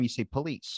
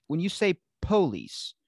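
First: "police" as puh-LEECE; quick, reduced first vowel in "police"; usual short police. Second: "police" as POH-leece, higher pitched; first-syllable police. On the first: [name] quoting the later takes, puh-LEECE pronunciation. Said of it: "every other time you say police". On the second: [name] pointing out the host's word, POH-leece pronunciation. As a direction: lean on a long O in "police". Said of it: "you say that the first time". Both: Retold or imitated.

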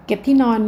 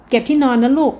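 First: Said in the usual way. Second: Gentle coaxing. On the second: Shown as a demonstration. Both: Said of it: "ด้วยท่าทีนะ ไม่ใช่แค่".

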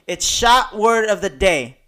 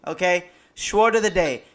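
First: "shot word" said slowly and clearly; slow clarifying stress. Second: Said in the usual way. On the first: Shown as a demonstration.

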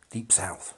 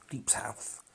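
First: Said in the usual way. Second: Dramatic whisper. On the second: Acted. Repeating place guess dramatically.

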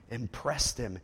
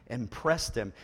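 The two takes are said the same way.

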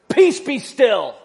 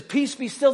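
First: "Peace be still" barked loud and slow, each word hit hard; a grumpy, forceful order to the storm; ticked-off command. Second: "Peace be still" spoken evenly and steadily, not barked; calm rebuke. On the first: Jesus, irritated, orders the sea, mock angry. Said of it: "a little ticked off". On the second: Jesus calmly speaks peace to the sea. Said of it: "But a rebuke ain't that". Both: Retold or imitated.

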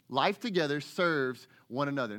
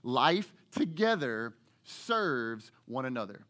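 First: Said in the usual way. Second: Said slowly, leaning on "together"; slow emphatic. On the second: Shown as a demonstration. Preacher giving the first truth, slow and emphatic. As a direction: lay down "together" deliberately. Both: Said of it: "Here's the first truth".

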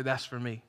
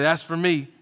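First: Said in the usual way. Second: Louder, livelier call-and-response; louder prompt. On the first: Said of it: "Turn to somebody and say". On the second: Shown as a demonstration. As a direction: push the crowd to say it back. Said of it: "ten thirty, we're gonna work on it".

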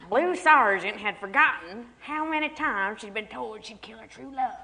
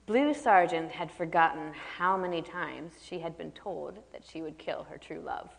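First: Mock Southern accent, higher and louder, laughing through it; fake Southern accent. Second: Said in the usual way. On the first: Shown as a demonstration. Author parodying the LA narrators' fake Southern accent, laughing. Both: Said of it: "I'm not gonna read it like that".

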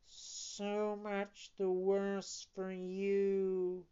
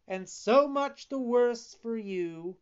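First: Slow, drawn-out cat echo. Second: High, loud crafty fox; sly fox. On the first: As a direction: drag it out like a lazy sly cat. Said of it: "repeated the cat". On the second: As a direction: sneer it like a scheming fox. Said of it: "said the fox". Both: Acted.

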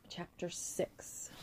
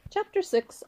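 First: Slow breathy whisper of 'Chapter Six'. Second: High, loud call of 'Chapter Six'; loud announcement. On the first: Reader teasing listeners with a whispered title, slow whisper. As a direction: hush it out like a secret. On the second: Reader proudly announcing the chapter to listeners, loud and high. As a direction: announce it with a bang. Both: Shown as a demonstration. Title read a second time.

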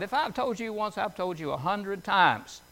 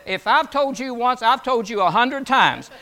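First: Said in the usual way. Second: Imitating mom. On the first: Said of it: "she told me that a lot". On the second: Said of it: "my mom said".

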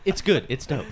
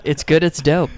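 First: Imitating catchphrase. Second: Catchphrase delivery. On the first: Mimicking Zach's catchphrase. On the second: Retold or imitated. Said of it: "It's my catchphrase".

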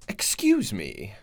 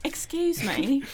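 First: A slow, lightly put-on British "Excuse me"; polite British stranger, said slowly and low; bad British accent. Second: A higher, lightly voiced British "Excuse me"; British accent. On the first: British guy interrupting the women at lunch, badly faked British accent. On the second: Co-host correcting the host's accent, lightly British. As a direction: show him how the Brit should say it. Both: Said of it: "that was a shitty British accent".

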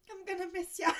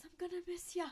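First: High, loud mock farewell; hammed-up loud goodbye with a laugh; mock farewell downward. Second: High-pitched, lilting mock farewell; teasing high-voiced goodbye at a grave; mock farewell to heaven. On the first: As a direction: blurt it at the grave, laughing. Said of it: "she looks down at the ground". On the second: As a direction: call it up to heaven, higher. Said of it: "she looks up into heaven".

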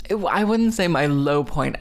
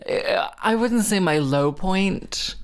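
First: Said in the usual way. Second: Slow, higher, drawn out; slow drawn-out musing. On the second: Shown as a demonstration. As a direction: stretch it out slowly, musing.

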